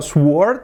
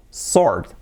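First: "sword" with the w sounded, like "swuord"; wrong sword. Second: "sword" with silent w, as "sord"; correct sword. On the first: Teacher showing the sound to avoid, wrong w in sword. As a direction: put an audible w into "sword". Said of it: "No es el sonido". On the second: Teacher correcting the mistake, silent-w sword. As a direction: say "sword" without any w. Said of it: "Así se dice". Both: Shown as a demonstration.

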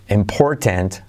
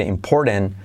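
First: "important" slowly, with the T clearly sounded; full T. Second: "important" with the middle T softened away, "imporn't". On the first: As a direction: say "important" carefully, hitting the middle T. ("important" despacio, con la T marcada) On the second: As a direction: say "important" relaxed, swallowing the T. ("important" con la T suavizada, casi sin sonar) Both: Shown as a demonstration. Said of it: "puedes hacer la T como resuelve".

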